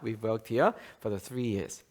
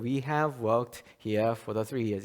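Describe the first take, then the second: First: It is said fast with "have" reduced. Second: It is read slowly with "have" said fully. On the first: "굉장히 약화가 돼요" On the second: "천천히 읽으면은"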